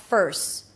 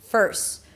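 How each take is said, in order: Both takes have the same delivery.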